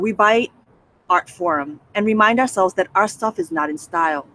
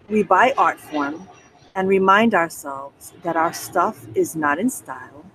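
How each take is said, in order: First: It is read fast. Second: It is read slowly.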